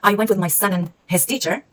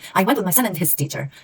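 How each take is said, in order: First: 'And' is reduced to a short 'n' sound. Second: 'And' is said fully with a stop on D. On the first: The speaker calls it right. "it's pronounced as an, or just an n, and again with reduction" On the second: The speaker calls it wrong. "we're gonna make a stop at the D"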